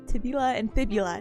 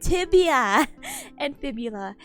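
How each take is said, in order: First: The first word is pronounced with an extra l sound. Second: The first word is pronounced without an l sound. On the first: The speaker calls it wrong. "not tib- tibula" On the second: The speaker calls it right. "No, tibia and fibula"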